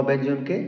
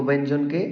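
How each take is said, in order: The two takes are said the same way.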